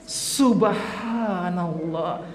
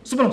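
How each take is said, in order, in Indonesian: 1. Diucapkan dengan sangat pelan dan panjang. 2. Diucapkan dengan sangat cepat. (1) "Ini sudah lama" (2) "Sarian itu terlalu cepat"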